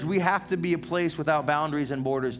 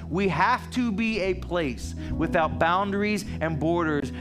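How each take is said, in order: First: It is said in a calmer, plainer way. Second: It is said with more passion and energy.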